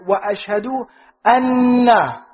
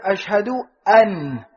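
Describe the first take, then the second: First: Slow, with the doubled n of anna held long; anna stressed with a long double n. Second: Slow, with an said light and short; an said light with no emphasis. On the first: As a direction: lean on anna, hold the nn. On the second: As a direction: let an sit light and unstressed. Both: Shown as a demonstration. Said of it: "Which one sounds stronger".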